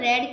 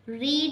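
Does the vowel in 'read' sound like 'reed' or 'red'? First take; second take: red; reed. First: The vowel is a short e sound. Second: The vowel is a long ee sound. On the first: It is the past tense. "हम pronounce तो रेड करेंगे" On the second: It is the present tense. "रीड means पढ़ना"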